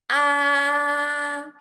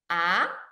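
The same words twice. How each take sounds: First: The pitch stays high and level throughout. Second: The pitch starts middle and rises high. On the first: "it starts high and maintain high throughout the whole process" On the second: "It starts middle and goes up high"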